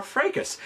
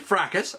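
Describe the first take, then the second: First: Fracas said as "FRAY-kus"; alternative pronunciation. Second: Fracas said as "FRACK-us"; first pronunciation variant. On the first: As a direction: say Fracas with a long "ay", as in "day". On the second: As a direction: say Fracas with a short "a", as in "crack". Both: Shown as a demonstration. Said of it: "if you prefer that pronunciation".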